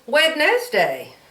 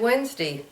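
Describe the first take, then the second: First: Every written letter is sounded, including the d. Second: The d is dropped, sounding like Wensday. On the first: The speaker calls it wrong. "So you should say it's Wednesday" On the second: The speaker calls it right. "you say Wednesday"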